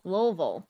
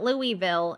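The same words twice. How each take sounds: First: The word is shortened with sounds swallowed. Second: The word is said fully with every syllable. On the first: The speaker calls it right. "You swallow half the sentence when you're trying to say the word" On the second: The speaker calls it wrong. "not Louisville"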